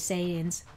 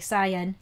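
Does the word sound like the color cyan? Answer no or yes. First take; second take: no; yes. First: The word does not sound like cyan. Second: The word sounds like the color cyan. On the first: This is the usual way to say it. "instead of Saiyans" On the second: This is how the Philippine dub says it. "like the color cyan"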